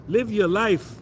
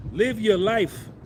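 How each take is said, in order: First: Said in the usual way. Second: Said very slowly, each word weighed; slow, deliberate urging; slow emphasis. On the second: Shown as a demonstration. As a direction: drag it out like advice that matters.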